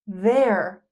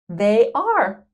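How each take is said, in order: First: The words merge into one short syllable. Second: Two separate full words are said.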